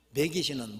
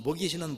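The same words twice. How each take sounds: First: "먹이시는" said as 멕이시는, Chungcheong style; dialect vowel. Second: Said in the usual way. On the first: Shown as a demonstration. Preacher reading the dialect word, "먹이시는" pronounced 메기시는. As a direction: front the first vowel of "먹이시는" to 메. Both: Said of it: "이 충청도 버전이랍니다".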